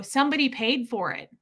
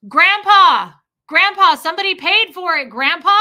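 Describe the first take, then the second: First: Said in the usual way. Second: Loud, high shout at a hard-of-hearing grandpa; shouting for the deaf. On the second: Retold or imitated. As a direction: holler it so he can hear. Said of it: "So I had to shout in public".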